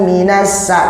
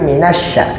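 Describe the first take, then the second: First: The middle consonant is a plain s sound. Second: The middle consonant is an sh sound. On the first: The speaker calls it wrong. "jangan pakai sin" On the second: The speaker calls it right. "di tengah pakai shin ya"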